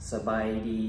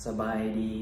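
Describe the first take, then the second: No difference in how they are said.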